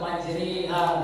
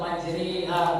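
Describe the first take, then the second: First: The vowel after 'majr' sounds like i. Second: The vowel after 'majr' sounds like i.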